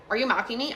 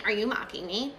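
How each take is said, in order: First: Said in the usual way. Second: Light mimicking echo of mom; imitated copycat. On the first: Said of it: "So if she was like". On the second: Daughter supposedly echoing mom on the phone, light mimicry. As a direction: parrot the question straight back. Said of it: "copying everything she said".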